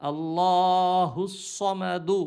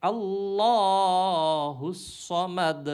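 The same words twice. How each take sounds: First: Said in the usual way. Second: আল্লাহুস সমাদ ending on a bare দ with no u vowel; slow pausal আল্লাহুস সমাদ, clipped on দ; stopping form. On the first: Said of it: "শুধু পেশটা পড়তে হবে না". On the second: Shown as a demonstration. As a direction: stop on the দ of সমাদ and drop the final vowel. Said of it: "যখন থামবো".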